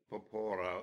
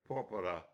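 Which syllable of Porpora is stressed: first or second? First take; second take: second; first. First: The stress is on the second syllable. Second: The stress is on the first syllable. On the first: The speaker calls it wrong. "if you don't know where the accent goes, it's probably going to belong to the penultimate syllable" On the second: The speaker calls it right. "He corrected my pronunciation"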